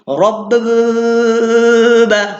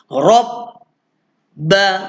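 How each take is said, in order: First: The hold before the b makes a buzzing sound. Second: The hold before the b is silent. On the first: The speaker calls it wrong. "Dia tak boleh bunyi Rob ba. ... Bunyi motor dia tak boleh" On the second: The speaker calls it right. "dia senyap je. Tahu-tahu sampai rumah ba"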